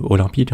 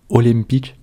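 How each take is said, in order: First: Said in the usual way. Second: Attempted Korean pronunciation of "olympique"; "olympique" sounded out with an awkward Korean accent; bad Korean accent. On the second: Shown as a demonstration. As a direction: read "olympique" phonetically off Korean script, in a clumsy Korean accent. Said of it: "Désolé pour mon accent, il est affreux".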